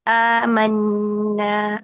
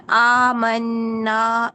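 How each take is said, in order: First: آمنا stretched slowly, mouth opened only as much as needed; teacher shows the correct آمنا; mouth just enough. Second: آمنا with the mouth opened wide, very drawn out; teacher shows the wrong wide-open آمنا; mouth too open. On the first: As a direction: say آمنا with a moderate mouth opening, nasal nunn. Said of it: "جتنا کھلتا ہے اتنا،". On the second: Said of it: "منہ بڑا نہیں کھولنا۔". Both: Shown as a demonstration.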